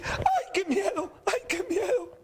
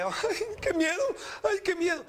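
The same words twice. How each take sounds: First: Very high, drawn-out mimicking whine; mocking. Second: High, whimpering mock fright; acted fear. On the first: Preacher voices God making fun of the frightened person, mocking. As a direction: taunt by parroting someone's frightened wail. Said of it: "Dios va a burlarse de usted". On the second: Preacher acts out a person struck by calamity, mock fear. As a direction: wail as if terrified, hammed up. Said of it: "cuando le llega algo que usted le".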